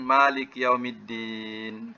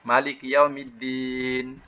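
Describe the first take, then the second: First: The first vowel of malik is held long. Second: The first vowel of malik is kept short. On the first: It names the one who rules over the Day of Judgment. "kalau kita baca panjang, ya, ma panjang" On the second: It names the king of the Day of Judgment. "Tapi boleh juga baca pendek"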